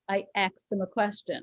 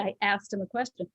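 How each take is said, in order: First: The word asked is pronounced like axed. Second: The word asked is pronounced like ast. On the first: The speaker calls it wrong. "she kept saying the word axed" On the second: The speaker calls it right. "if you say A S T"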